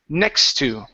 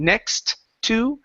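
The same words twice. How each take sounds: First: The two T sounds merge into one. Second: Two separate T sounds are pronounced. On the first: The speaker calls it right. "it's next to" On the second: The speaker calls it wrong. "there's no need to pronounce two of the same the same letter. So instead of saying next to"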